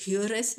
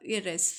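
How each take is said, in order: First: Heiress with the h sounded at the start; wrong pronunciation. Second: Heiress with a silent h, starting on the vowel "airess"; correct pronunciation. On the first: Teacher showing students the wrong way, h sounded. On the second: Teacher correcting students, silent h. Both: Shown as a demonstration. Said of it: "यहाँ पे heiress नहीं होगा".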